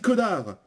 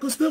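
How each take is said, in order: First: The s in the middle is silent. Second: The s in the middle is pronounced. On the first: The speaker calls it right. "on dit connard. ... On ne prononce jamais le S" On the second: The speaker calls it wrong. "On dit pas Cosnard"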